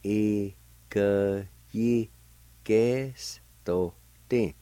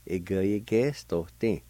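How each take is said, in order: First: Very slow Ikeyigestotin, each syllable held and separated. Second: Said in the usual way. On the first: Shown as a demonstration. Teacher repeating the word for "earlier", very slowly by syllable. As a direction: break Ikeyigestotin into long, spaced syllables. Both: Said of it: "it's pronounced like this".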